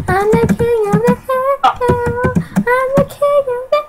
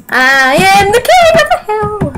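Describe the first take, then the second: First: Chanted, high sing-song boast; high gloating chant. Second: Raised, swelling proclamation; triumphant boast. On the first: Chanted, player gloating over the lead, high sing-song. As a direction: chant it high, like a little tune. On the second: Player taking the lead, raised triumphant boast. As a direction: proclaim it grandly, pitch climbing. Boasts about leading the game. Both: Real, not acted.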